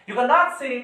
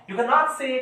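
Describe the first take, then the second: Both takes have the same delivery.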